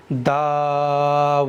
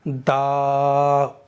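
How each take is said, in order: First: दाऊदा with a clean lip-rounded वाव held one alif, दाल short; slow careful recitation, no hamza in the throat; correct recitation. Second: दाऊदा with a glottal hamza catch on the ऊ, from the throat; wrong hamza demo. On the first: Teacher reciting the right form after showing the mistake. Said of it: "वाव को मैंने यहाँ पर एक अलिफ के बराबर खींचा है". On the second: Teacher showing learners the wrong reading, hamza in throat. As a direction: demonstrate the common mistake, a throaty break before ऊ. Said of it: "वो हमजा उल्टा पेश ऊ पढ़ते हैं". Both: Shown as a demonstration.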